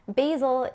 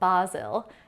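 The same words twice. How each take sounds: First: It is said with an American pronunciation. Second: It is said with a British pronunciation.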